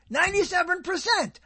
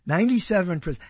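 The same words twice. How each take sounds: First: High, indignant repeat of the score; incredulous. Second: Said in the usual way. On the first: Real, not acted. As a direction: throw the figure back in disbelief.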